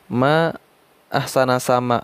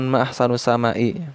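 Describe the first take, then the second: First: The word ahsan ends with an 'a' vowel. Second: The word ahsan ends with a 'u' vowel. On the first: It exclaims how beautiful the sky is. The speaker calls it right. "Jadi seharusnya itu ma ahsana sama ya" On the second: It asks what is most beautiful in the sky. The speaker calls it wrong. "bukan ma ahsanu sama'i"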